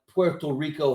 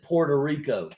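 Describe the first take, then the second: First: The first word sounds like 'Puerto'. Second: The first word sounds like 'Porta'. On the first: It is the careful, respectful way of saying it. "a cognizant effort to remember to pronounce it Puerto Rico" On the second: It is the local West Virginia way of saying it. "we pronounce it Puerto Rico, like P O R T A"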